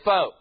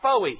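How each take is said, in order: First: The word ends on a plain 'o' sound. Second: The word ends with an added 'ee' sound. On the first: The speaker calls it right. "the American soldier would say "foe."" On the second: The speaker calls it wrong. "It always came out "foey.""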